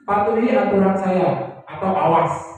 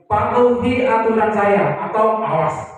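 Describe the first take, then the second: First: It is said at an ordinary pitch. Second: It is said at a high, punishing pitch.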